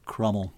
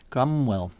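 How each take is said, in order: First: The name is said without a 'w' sound. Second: The name is said with a 'w' sound. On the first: "the likelihood is, in thinking of other Tudor pronunciations, it's Crummel" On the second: "spell his surname with a U"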